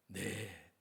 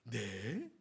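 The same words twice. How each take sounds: First: It is said as a ready, willing agreement. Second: It is said as a surprised, reluctant question. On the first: The speaker readily accepts the task. The speaker calls it right. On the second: The speaker doubts and resists the task. The speaker calls it wrong.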